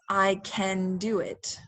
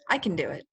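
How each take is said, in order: First: Can is said in full with a clear vowel. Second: Can is reduced, sounding like kin. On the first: "To pronounce it very clearly is" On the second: "So people usually say kin"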